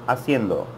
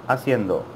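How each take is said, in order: No difference in how they are said.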